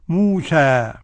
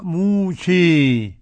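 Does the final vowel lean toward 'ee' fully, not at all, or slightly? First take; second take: not at all; fully. First: The final vowel is a fully open 'a'. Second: The final vowel leans strongly toward 'ee'. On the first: "الفتح موسى" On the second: "وقرأها بالإمالة الكبرى موسى"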